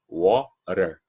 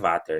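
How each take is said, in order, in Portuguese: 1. Ela é pronunciada em inglês americano. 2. Ela é lida do jeito alemão. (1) "Esse é o inglês americano" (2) "vai ver esse W ali e vai pensar que é Water"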